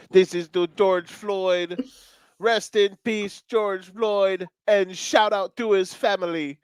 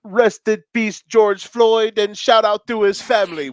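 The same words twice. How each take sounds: First: Put-on slow, high Swiss German accent; drawled Swiss German accent tribute. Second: High, loud DJ shout-out; imitating a DJ's earnest tribute; [name] impression. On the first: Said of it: "It's Swiss accent". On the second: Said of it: "at the end he said".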